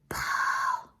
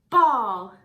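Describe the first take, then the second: First: It is said in a fun, playful way. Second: It is said in a plain, neutral way.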